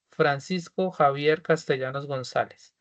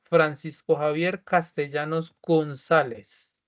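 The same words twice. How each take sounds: First: Said in the usual way. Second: Slow, clear dictation of the full name. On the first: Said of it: "completo el nombre". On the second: Shown as a demonstration. Teacher dictates the name to students, slowly and clearly. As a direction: spell it out slowly for the class to type. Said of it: "van a colocar, por favor".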